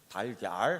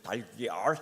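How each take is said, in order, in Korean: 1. 이 단어는 평범한 한국어 발음으로 말해요. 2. 이 단어는 혀를 말아 올리는 과장된 영어식 발음으로 말해요. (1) "달걀 하면 되는 거지" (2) "달걀 해야 돼?"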